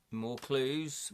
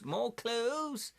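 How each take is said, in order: First: Said in the usual way. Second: High, rising exclamation; excited high-pitched cheer. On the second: Real, not acted. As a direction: exclaim it much higher, delighted at the find. Excited repeat over new clues.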